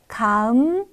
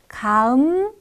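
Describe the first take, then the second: No difference in how they are said.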